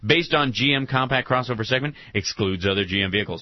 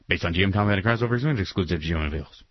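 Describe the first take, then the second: First: It is said at a normal speed. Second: It is said very fast.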